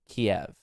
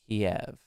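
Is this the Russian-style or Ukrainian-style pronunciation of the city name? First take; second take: Russian-style; Russian-style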